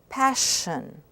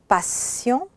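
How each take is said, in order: First: The word ends in a plain 'shun' sound. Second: The word ends in a nasal vowel. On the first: "shun, in English" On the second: "sion, in French"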